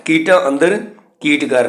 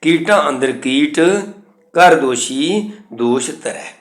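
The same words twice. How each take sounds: First: Rising ਅੰਦਰ, pause, then ਕੀਟ ਕਰ as one; mistaken grouping. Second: Slow, ਕੀਟ held, pause, then ਕਰ ਦੋਸ਼ੀ; correct pausing. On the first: Teacher rejects this reading, ਕੀਟ ਕਰ joined after a pause. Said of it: "ਨਹੀਂ". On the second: Teacher shows correct reading, slowly pausing after ਕੀਟ. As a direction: keep ਕੀਟ with ਅੰਦਰ and break before ਕਰ. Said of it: "ਇਹ ਸ਼ੁੱਧ ਉਚਾਰਨ ਹੈ". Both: Shown as a demonstration.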